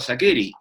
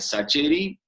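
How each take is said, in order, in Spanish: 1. La consonante del medio es una k fuerte. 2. La consonante del medio es un sonido ch. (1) "yo antes lo pronunciaba Sakeri" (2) "resignarme después al Sacheri"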